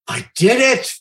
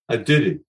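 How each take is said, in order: First: It is said in his own natural voice. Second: It is said in a Fonz impression voice.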